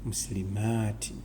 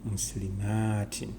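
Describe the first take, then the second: First: The word ends with the sound 'tin'. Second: The same.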